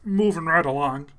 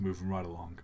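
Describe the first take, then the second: First: Trying out a puppet frog voice; lightly voiced frog catchphrase; Kermit. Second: Said in the usual way. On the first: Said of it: "I'm trying to do Kermit". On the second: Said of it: "I don't know the lyrics to".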